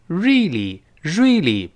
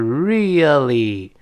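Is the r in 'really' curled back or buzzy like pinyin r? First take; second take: Buzzy; Curled. First: The r is a buzzy sound like pinyin r. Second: The r is made with the tongue curled back. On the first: The speaker calls it wrong. "不要读really，不是日" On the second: The speaker calls it right. "所以应该是really 这么一个声音"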